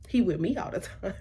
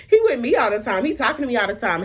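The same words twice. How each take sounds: First: Soft, under-the-breath protest; quietly baffled aside; hushed disbelief. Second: Raised, emphatic retold protest; indignantly baffled, voice up; insistent disbelief. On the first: Retold or imitated. Quieter first take of protest. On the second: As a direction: push it out higher, insisting it can't be true. Repeats protest, now raised and insistent.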